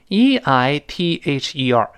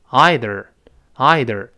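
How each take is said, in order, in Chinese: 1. 它以ee元音开头，结尾带卷舌r音。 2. 它以eye元音开头，结尾带卷舌r音。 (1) "这个是鲜明的美式发音" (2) "它前面还是I，只不过后面加卷舌了，它读成"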